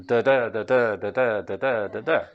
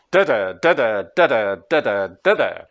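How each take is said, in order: First: Da-DA, da-DA, second half of each "da-da" stressed; iambic stress. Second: DA-da, DA-da, first half of each "Da-da" stressed; trochaic stress. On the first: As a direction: contrast with iambs, leaning on the second syllable of "da-da". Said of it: "Does that sound more Russian than". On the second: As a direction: beat out trochees, hitting the first syllable of "Da-da". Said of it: "Russian is naturally trochaic". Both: Shown as a demonstration.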